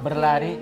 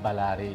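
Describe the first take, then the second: First: The first syllable is "ber" with an e vowel. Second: The first syllable is "ba" with an a vowel. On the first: This is the Malay form. "Kalau bahasa Melayu kebanyakan memakai vokal huruf E" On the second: This is the Berau form. "bahasa Berau itu memakai vokal huruf A"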